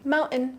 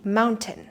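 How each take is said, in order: First: The T in the middle is dropped. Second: The T in the middle is pronounced. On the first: "in natural speech, we just drop it completely" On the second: "you really want to pronounce that T"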